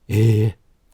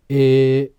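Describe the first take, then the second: First: The vowel is voiced with much audible escaping air. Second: The vowel is voiced clearly with no audible air. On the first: "息漏れ声での発声は" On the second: "普通の発声が"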